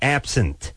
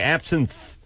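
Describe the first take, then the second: First: The first part sounds like the word 'absent'. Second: The first part does not sound like 'absent'. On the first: This follows the spelling. "It's spelled like absinthe. like you're absent from school" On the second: This is how people actually say it. "but they say absinthe"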